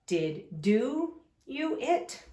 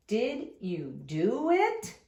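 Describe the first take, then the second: First: Did do you it read slowly with a rising end; wrong word order. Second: Did you do it read slowly, rising on it; correct question. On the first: Teacher reading the wrong card order aloud. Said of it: "that doesn't sound right". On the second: Teacher reading the fixed question to the class. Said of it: "we've made a sentence". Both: Shown as a demonstration.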